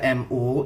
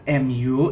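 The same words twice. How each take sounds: First: The letters are named with Indonesian letter names. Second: The letters are named with English letter names. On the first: It stands for Muhammadiyah. "itu artinya Muhammadiyah" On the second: It stands for Manchester United. "itu artinya Manchester United"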